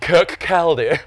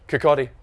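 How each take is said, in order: First: It is said with an English pronunciation. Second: It is said with a Scottish pronunciation.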